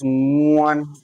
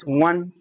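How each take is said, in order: First: "one" drawn out slowly from a long hummed start; stressed, elongated. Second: Said in the usual way. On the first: Shown as a demonstration. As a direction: stretch "one" so the learner hears each sound. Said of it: "It's just to stress it". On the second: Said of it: "so that you understand it slowly".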